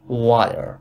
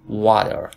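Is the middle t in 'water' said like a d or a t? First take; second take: d; d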